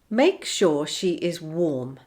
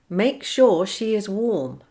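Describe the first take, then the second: First: The words are said separately, without linking sounds. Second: The words run together with a linking sound. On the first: "without linking" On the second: "with the linking"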